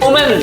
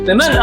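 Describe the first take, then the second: First: The first vowel sounds like 'oo' in 'wood'. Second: The first vowel sounds like 'i' in 'win'. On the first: The speaker calls it wrong. "ವುಮೆನ್ ಅಂತೀವಿ... ಅದು ತಪ್ಪು" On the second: The speaker calls it right. "ವಿಮೆನ್ ಅಂತ ಓದ್ಬೇಕು"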